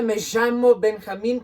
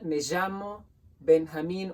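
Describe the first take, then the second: First: The 'll' sounds like a strong sh. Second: The 'll' sounds like a soft zh. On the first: "in Argentina, it's even more pronounced and strong" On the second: "like a sh meets a j sound"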